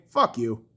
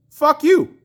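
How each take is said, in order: First: Quiet, low-pitched dismissal; low angry retort. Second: Higher, punched-up fury; raised angry retort. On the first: Fan answering excuses for the goalie, low dismissive anger. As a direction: drop it low and curt. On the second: Fan repeating the retort to the goalie, raised anger. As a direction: hit it harder, voice raised. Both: Real, not acted.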